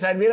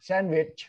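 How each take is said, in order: First: The word ends with a short 't' sound. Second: The word ends with a 'ch' sound. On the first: The speaker calls it wrong. "เราไม่เป็นแซนด์วิชแล้วนะ" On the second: The speaker calls it right. "sandwich, rich"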